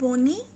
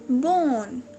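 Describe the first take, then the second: First: The word ends with an added 'ee' sound. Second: The word ends on the 'n' sound. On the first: The speaker calls it wrong. "It's not बोनी" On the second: The speaker calls it right. "It's बोन"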